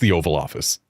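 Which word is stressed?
Office. The stress falls on the word Office. The speaker calls it right. "it's the Oval Office"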